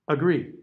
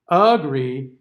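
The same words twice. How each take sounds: First: The first vowel is a weak schwa. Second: The first vowel is a full stressed vowel.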